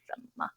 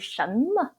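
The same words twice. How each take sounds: First: The first syllable has a low dipping tone. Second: The first syllable has a rising tone. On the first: This is how people commonly say it in Taiwan. "Since I was little, I have heard everyone say" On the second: This is the form shown in Pinyin. "not really"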